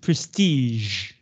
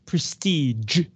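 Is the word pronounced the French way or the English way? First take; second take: French way; English way. First: The word is said in a French way. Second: The word is said in an English way. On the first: The speaker calls it right. "it's prestige" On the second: The speaker calls it wrong. "Not prestige"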